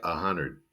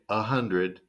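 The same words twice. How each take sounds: First: "hundred" said as "hunnerd"; reduced D. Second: Said in the usual way. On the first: Shown as a demonstration. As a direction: swallow the D in "hundred", making it "hunnerd". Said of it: "it sounds like". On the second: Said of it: "but honestly, it sounds like".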